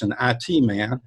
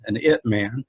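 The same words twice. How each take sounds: First: "I T" said as two letters, eye tee; spelled-out I T. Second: "it" said as one word, like the pronoun it. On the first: Naming the conference mascot, "I T" spelled as eye tee. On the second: Punning on the mascot's name, "it" said as a word. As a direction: run "it" together as a single word, the pronoun, for the pun. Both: Shown as a demonstration.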